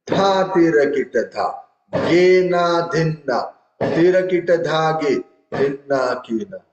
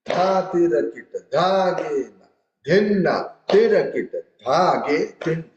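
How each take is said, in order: First: "Dha tira kita dha", "Ge na dhin na" as even four-beat blocks; wrongly grouped in fours. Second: "Dha tirakita", "dhagena", "dhinna" as separate groups, raised pitch; recited by phrases. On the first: Tabla teacher showing students the wrong way, chanted in blocks of four. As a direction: recite in square fours, pausing before "Ge" and before "Tira". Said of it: "if I say other way". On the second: Tabla teacher showing students the kaida's phrasing, recited phrase by phrase. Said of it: "you have to recite as per the phrases". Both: Shown as a demonstration.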